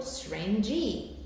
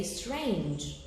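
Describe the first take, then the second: First: "strange" with the final E voiced as an extra "ee" syllable; final E sounded. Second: "strange" drawn out slowly as one syllable; silent final E. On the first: Teacher showing students what not to say, final E of "strange" sounded. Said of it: "So you don't say". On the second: Teacher showing the correct word, "strange" as one slow syllable. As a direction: say "strange" slowly, ending on the j sound with no extra vowel. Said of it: "You say strange". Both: Shown as a demonstration.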